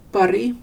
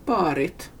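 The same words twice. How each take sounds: First: Pari with a short first a; short vowel. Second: Parit with a drawn-out first a; long vowel. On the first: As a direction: keep the a in Pari brief. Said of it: "korta ljud med en bokstav". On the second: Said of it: "långa med två". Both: Shown as a demonstration.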